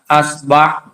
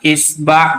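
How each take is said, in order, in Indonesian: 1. Kata itu diawali dengan vokal a. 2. Kata itu diawali dengan vokal i. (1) "Yang pertama hamzanya di fathah" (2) "Sekarang hamzahnya di kita kasroh"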